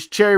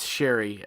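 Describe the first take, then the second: First: The name begins with a 'ch' sound. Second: The name begins with an 'sh' sound. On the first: The speaker calls it wrong. "I said Cherry" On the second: The speaker calls it right. "I think it's Sherry"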